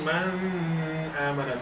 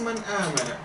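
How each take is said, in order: First: The n is held with a nasal hum. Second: The n is said plainly without a hum. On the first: The speaker calls it wrong. "I don't say man amana, no room for that" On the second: The speaker calls it right. "Just man amana"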